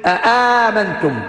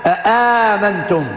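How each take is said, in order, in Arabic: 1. تبدأ بهمزتين منفصلتين. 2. تبدأ بهمزتين منفصلتين.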